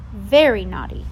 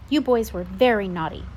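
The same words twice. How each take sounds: First: Much louder repeated scolding; emphatic scold. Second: Louder stern scolding; scolding babysitter. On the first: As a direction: hammer the point home harder. Babysitter repeating her scolding. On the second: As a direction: tell the boys off firmly. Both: Acted.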